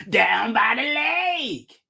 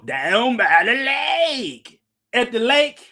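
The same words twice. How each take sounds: First: Slow, shouted preacher voice, lake drawn out; Lovell Crawford impersonation. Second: Slow, drawn-out preacher voice, lake stretched long; sing-song the lake like Lovell Crawford; slow, stretched imitation of a preacher; Lovell Crawford impersonation. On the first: Retold or imitated. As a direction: belt down by the lake, stretched and slow. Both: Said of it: "That's my Lovell Crawford impersonation".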